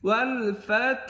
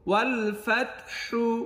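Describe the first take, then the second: First: The last word ends on a soft consonant. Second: The last word ends with an 'u' vowel. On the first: The reader stops at this word. "অক্ফ করিলে কি হবে ওয়াল ফাত" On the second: The reading continues without stopping. "হা পেশ হু"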